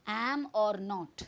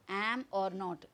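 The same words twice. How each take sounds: The two takes are said the same way.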